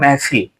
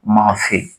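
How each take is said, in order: First: The first vowel is an 'e' sound. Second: The first vowel is an open 'a' sound. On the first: This is how people say it when speaking quickly. "जल्दी से उच्चारण में आदमी कहता है" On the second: This is how the word is written. "शब्द लिखा हो महफिल"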